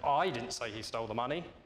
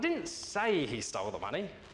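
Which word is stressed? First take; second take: I; say. First: The word 'I' is stressed. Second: The word 'say' is stressed. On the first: Someone else said it. "Now suggest somebody else did" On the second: The speaker only hinted at it. "I merely suggested it"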